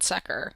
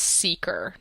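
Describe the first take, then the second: First: The first vowel is a short 'e' sound. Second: The first vowel is a long 'ee' sound. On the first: The speaker calls it wrong. "not Secker" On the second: The speaker calls it right. "It's pronounced Seeker"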